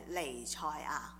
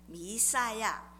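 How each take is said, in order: First: The word is read with Cantonese pronunciation. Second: The word is read with Mandarin pronunciation.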